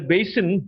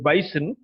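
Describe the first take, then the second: First: It is said with a standard vowel. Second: It is said with a Cockney vowel.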